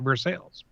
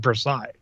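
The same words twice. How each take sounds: First: The name is given a local American pronunciation. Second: The name is given its French pronunciation. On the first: "Ohioans call it Versailles" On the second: "the French pronunciation is Versailles"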